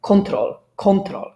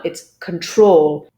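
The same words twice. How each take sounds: First: Control stressed on CON; wrong control stress. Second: Control stressed on TROL, slow; correct control stress. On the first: Teacher demos the learners' wrong stress. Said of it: "would say control". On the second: Teacher models the correct stress on TROL. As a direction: slowly land on TROL in control. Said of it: "stress is actually on the second syllable". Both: Shown as a demonstration.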